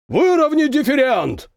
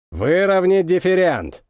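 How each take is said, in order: First: Shouting over machinery. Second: Said in the usual way. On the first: A narrator's reading. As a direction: bellow it over engine roar. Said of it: "проревел старпом, перекрикивая гул двигателей". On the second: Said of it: "произнёс Извольский и скривился".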